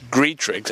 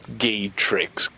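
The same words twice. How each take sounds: First: Graytrix said clearly with the r after the G, GRAY-trix; correct name said. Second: Gaytrix said with a plain G, no r, as the mistake; wrong name said. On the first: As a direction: Graytrix with the r sounded plainly. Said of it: "Graytrix, not Gaytrix". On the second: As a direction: Gaytrix as the wrong form with the r dropped. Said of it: "not Gaytrix". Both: Shown as a demonstration.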